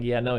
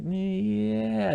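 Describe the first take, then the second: First: Said in the usual way. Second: Long, high "Yeah" falling at the end; deciding. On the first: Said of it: "instead of saying, like". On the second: Retold or imitated. Man deciding to be honest, a drawn-out "Yeah". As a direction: stretch "Yeah" high while making up your mind. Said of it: "him deciding".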